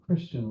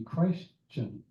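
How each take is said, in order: First: The first syllable is slurred, not sounding like Christ. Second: The first syllable clearly sounds like the word Christ. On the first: The word is used loosely and casually. The speaker calls it wrong. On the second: The word points to being a follower of Christ. The speaker calls it right.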